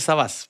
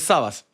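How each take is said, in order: First: The stress is on the last syllable. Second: The stress is on the first syllable. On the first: The speaker calls it wrong. "mucha gente me dice Sabas, pero no es Sabas" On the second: The speaker calls it right. "sin tilde... Entonces, Sabas"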